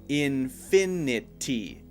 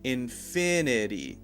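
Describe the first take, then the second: First: A clear T sound comes before the last syllable. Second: A light D sound comes before the last syllable. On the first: "instead of saying infinity" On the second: "a light D sound there instead of a T sound"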